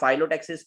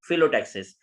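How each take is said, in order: First: The first syllable sounds like 'fie'. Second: The first syllable sounds like 'fill'. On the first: The speaker calls it wrong. "कुछ लोग इसको फाइलोटैक्सिस पढ़ते हैं तो वो गलत है" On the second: The speaker calls it right. "इसकी राइट प्रोनाउंसिएशन है फिलोटैक्सिस"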